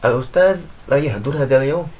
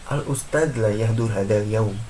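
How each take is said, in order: First: It is said with a questioning intonation. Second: It is said with a statement intonation. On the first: It asks whether the teacher is absent today. "menjadi istifhamiyah atau menjadi sebuah pertanyaan" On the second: It reports that the teacher is absent today. "itu menjadi khobariyah, menjadi kabar"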